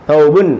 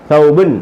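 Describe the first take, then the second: No difference in how they are said.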